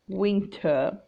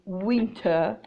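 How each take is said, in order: First: The word starts with a rounded w sound. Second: The word starts with a rounded w sound.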